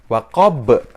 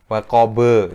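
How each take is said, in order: First: The word ends on a bounced final consonant. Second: The word ends with an added vowel sound. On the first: The speaker calls it right. "Lebih sempurna lagi pantulannya. Jadi bacanya adalah waqob" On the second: The speaker calls it wrong. "Waqobe itu salah"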